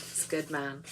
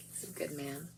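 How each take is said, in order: First: Soft Irish accent on he's a good man. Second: Irish accent. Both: Shown as a demonstration. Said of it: "you have to say with an Irish accent".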